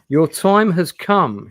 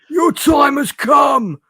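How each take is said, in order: First: It is read in the speaker's ordinary voice. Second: It is read in a put-on old man's voice.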